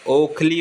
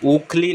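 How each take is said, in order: First: ओखली as "okh-lee"; correct o opening. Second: ओखली misspoken as "ookh-lee"; wrong oo opening. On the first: Teacher correcting it, ओखली opening on "o". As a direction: start ओखली with a round o. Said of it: "ओखली होता है". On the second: Teacher showing the error, ओखली opening on "oo". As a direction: start ओखली with oo, not o. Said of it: "ओखली नहीं होता". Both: Shown as a demonstration.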